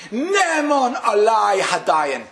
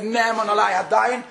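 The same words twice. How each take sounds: First: Slow, loud declaration of acceptance; crying out. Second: Said in the usual way. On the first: Retold or imitated. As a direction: call it out slowly to the heavens. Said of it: "And he screamed".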